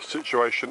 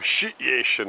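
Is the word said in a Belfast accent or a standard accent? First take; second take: standard; Belfast. First: It is said in the speaker's usual accent. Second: It is said in a Belfast accent.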